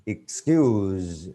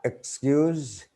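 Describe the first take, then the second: First: "excuse" drawn into a buzzing z; verb pronunciation. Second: "excuse" opening on a clear "ek"; noun pronunciation. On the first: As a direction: EXCUSE with a long z ending. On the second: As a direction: EXCUSE said as the noun, pitched high. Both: Shown as a demonstration. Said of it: "when we just change the word class".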